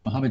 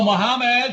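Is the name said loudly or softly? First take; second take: softly; loudly. First: The name is said quietly and gently. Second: The name is said loudly and forcefully. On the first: It gently and kindly regains the person's attention. "in a softer voice" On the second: It bluntly demands the distracted person's attention. "Louder volume"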